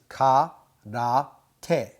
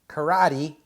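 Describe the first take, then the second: First: It is said with even, Japanese-style syllables. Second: It is said with English-style vowels and stress. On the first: The speaker calls it right. "that is karate" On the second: The speaker calls it wrong. "that's not karate"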